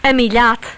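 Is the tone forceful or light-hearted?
forceful. It is said in a strong, forceful tone. Go away. "if you use a stronger tone of voice"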